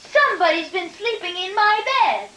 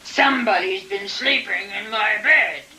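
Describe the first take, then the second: First: It is said in a tiny voice. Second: It is said in a big gruff voice.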